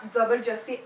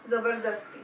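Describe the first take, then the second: First: Zabarjasti with a j sound in the middle; doubtful mispronunciation. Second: Zabardasti with a clear d in the middle; corrected pronunciation. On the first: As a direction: say "zabarjasti", a j in place of the d. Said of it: "Is that how you pronounce". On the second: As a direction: say "zabardasti", d rather than j. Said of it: "Okay, it's zabardasti". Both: Shown as a demonstration.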